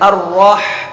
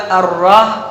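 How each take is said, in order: First: The final h comes from deep in the throat. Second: The final h is light, not from the throat. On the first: The speaker calls it right. "दरमियान हलक से अदा होगा" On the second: The speaker calls it wrong. "किसी ने बोला अर्रह तो ये गलत है"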